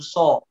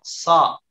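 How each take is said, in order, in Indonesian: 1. Suku katanya diucapkan dengan bibir membulat dan maju ke depan. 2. Suku katanya diucapkan tanpa memajukan bibir. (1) "Jangan so" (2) "Tidak maju bibirnya ya"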